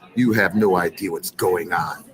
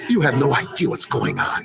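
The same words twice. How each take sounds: First: It is read in a plain voice. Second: It is read in a dramatic voice.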